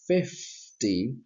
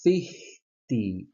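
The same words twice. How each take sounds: First: The f sound after the vowel is pronounced. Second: The f sound after the vowel is dropped. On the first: The speaker calls it right. "instead of, of saying fifty" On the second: The speaker calls it wrong. "many students make a mistake and then they say fifty"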